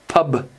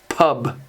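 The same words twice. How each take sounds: First: The final consonant is a soft, swallowed B. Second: The same.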